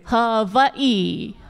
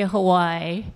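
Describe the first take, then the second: First: Hawaii is said the local island way. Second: Hawaii is said the mainland tourist way.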